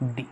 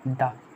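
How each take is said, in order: First: The vowel is long, like 'thee'. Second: The vowel is short and weak, like 'thuh'. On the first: The next word starts with a vowel sound. "Vowel sound" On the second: The next word starts with a consonant sound. "Consonant sound हो"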